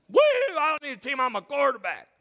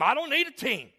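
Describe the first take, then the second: First: Whooping, high and loud quarterback boast; hammed-up cocky whoop; mock bravado. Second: Higher-pitched cocky quarterback comeback; mock self-assured player; cocky retort. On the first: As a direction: crow it fast like a show-off. Mocks boastful teamless quarterback. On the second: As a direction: brush the question off, voice pitched up. Acts out cocky teamless quarterback.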